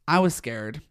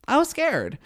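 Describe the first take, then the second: First: Said in the usual way. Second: High and loud, hamming up the fear; high loud mock fright. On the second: Real, not acted. Reviewer recalling Scuttlebutt, squealing in mock fright. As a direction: squeal it in playful dread.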